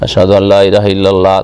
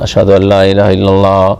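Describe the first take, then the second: Both takes have the same delivery.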